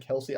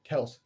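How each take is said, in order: First: The name has two syllables, ending in ee. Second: The name has one syllable, ending in s. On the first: This is how many other people say it. "I know a lot of people say Kelsey" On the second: This is how the speaker says it. "that's how I say it"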